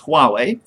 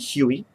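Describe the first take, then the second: First: The name is said like 'Wah-way'. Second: The name is said like 'Hoo-ee'. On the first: The speaker calls it right. "It's Huawei, from what I can tell" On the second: The speaker calls it wrong. "I read it as it looks, but it's completely wrong"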